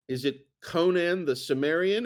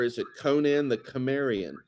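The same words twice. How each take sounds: First: "Cimmerian" with a soft s at the start; soft-C pronunciation. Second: "Cimmerian" with a hard k at the start; hard-C pronunciation. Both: Shown as a demonstration. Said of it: "how do you pronounce those".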